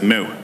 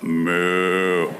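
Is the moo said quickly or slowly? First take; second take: quickly; slowly. First: The moo is said quickly. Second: The moo is drawn out slowly.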